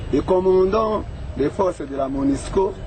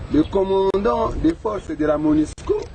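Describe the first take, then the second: The two takes are said the same way.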